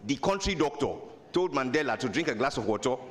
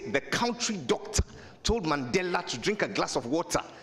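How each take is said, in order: First: A Nigerian accent, with sounds rounded and run together. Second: A Ghanaian accent, with every sound clearly pronounced. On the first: "The Nigerians will round everything up" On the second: "That's Ghanaian. We'll mention everything"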